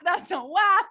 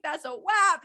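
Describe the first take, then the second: First: Repeated, louder and punchier; louder emphatic. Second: Said in the usual way. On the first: Pretend. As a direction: belt it out the second time. Repeated song quote louder.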